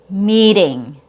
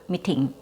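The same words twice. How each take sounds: First: It has a long E and a fast D-like T. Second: It has a short vowel and a crisp T. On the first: The speaker calls it right. "the T between two vowel sounds should come out as a fast D" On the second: The speaker calls it wrong. "Your vowel is too short"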